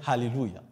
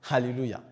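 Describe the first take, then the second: No difference in how they are said.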